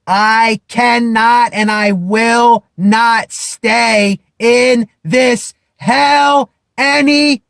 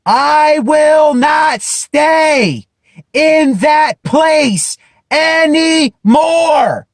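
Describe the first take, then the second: First: Slow, raised, deliberate vow; determined vow. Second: Very slow, high, shouted vow; out loud. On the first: Acted. To himself at rock bottom, a slow rising vow. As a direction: declare it slowly to yourself, building up. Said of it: "people think I might be yelling at them". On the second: Shown as a demonstration. To himself, refusing to stay there, slow shouted vow. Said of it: "No, I'm saying out loud".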